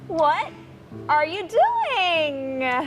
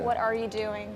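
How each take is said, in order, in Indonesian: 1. Nada tinggi dengan tempo lambat dan panjang. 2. Nada rendah, tempo lambat, volume sedikit lebih keras. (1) "Tinggi sama pelan-pelan" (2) "itu lebih slow, suaranya lebih low dan volumenya sedikit lebih tinggi"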